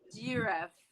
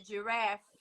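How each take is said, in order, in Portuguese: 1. A tônica está na primeira sílaba. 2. A tônica está na segunda sílaba. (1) "Você fala de giraffe" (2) "o acento agudo é no A do giraffe"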